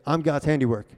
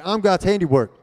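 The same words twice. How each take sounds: First: Said in the usual way. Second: Loud, high-pitched rallying shout; from the chest, meaning it. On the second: Shown as a demonstration. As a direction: belt it out like you mean it. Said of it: "say it with your chest. Say, say it like you mean it".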